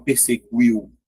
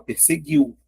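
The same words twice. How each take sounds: First: PERSEGUIU with the U sounded, as "perse-gwiu"; wrong pronunciation demo. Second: PERSEGUIU with silent U, a hard G straight into "iu"; correct pronunciation demo. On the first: Teacher shows what you don't say, PERSEGUIU with sounded U. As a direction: put a W glide after the G in "perseguiu". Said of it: "você não fala perseguiu". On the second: Teacher shows how you say it, PERSEGUIU with silent U. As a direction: say "perseguiu" with no W after the G. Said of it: "você fala perseguiu". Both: Shown as a demonstration.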